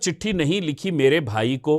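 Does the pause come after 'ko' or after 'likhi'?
after ko. A pause comes only after 'ko'. No letter was written to the brother. The speaker calls it wrong. "अशुद्ध है।"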